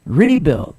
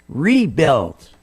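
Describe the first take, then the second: First: Rebuild repeated louder, re punched hard; louder stress on RE. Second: Rebuild with the re leaned on, falling tune; stress on RE. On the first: Host repeating Rebuild louder to drive the point. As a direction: hammer the re of Rebuild. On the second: Host telling callers to stress re, emphatic. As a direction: lean into the re of rebuild. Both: Shown as a demonstration. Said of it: "Put the emphasis on re".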